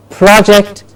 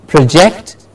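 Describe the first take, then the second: First: PROject, open first vowel; stress on first syllable. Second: ProJECT, as "pruh-JECT"; stress on second syllable. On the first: Teacher contrasting word pairs, front-stressed PROject. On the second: Teacher contrasting word pairs, back-stressed proJECT. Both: Shown as a demonstration. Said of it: "Do you hear the difference?".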